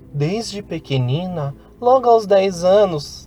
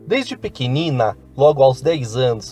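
First: It is said in a put-on girl's voice. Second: It is said in the speaker's normal voice.

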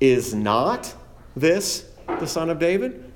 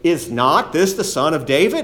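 First: It sounds hesitant and unsure. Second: It sounds confident and believing.

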